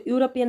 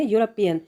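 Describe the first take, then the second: First: यूरोपियन said as "oo-ropian", without the y sound at the start; wrong pronunciation. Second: यूरोपियन said as "yoo-ropian", with a clear y sound at the start; correct pronunciation. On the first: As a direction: start यूरोपियन straight on the vowel "oo", no y. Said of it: "इसको यूरोपियन नहीं पढ़ेंगे हम". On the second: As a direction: begin यूरोपियन with a distinct "y" glide before the "oo". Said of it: "हम पढ़ते हैं यूरोपियन". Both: Shown as a demonstration.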